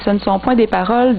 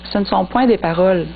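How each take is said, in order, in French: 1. La phrase se poursuit après paroles sans s'arrêter. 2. La phrase s'arrête complètement après paroles. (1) "Mais c'est le contraire" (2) "je ne sais pas si je mettais pas le, l'intonation à la bonne place ou le, les, les, la ponctuation à, à la bonne place"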